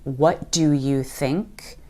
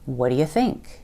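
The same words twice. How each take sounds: First: Each word is said fully and separately. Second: The first words blur together into what'ya. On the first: "Instead of saying" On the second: "we're going to reduce "what do you" to "what'ya.""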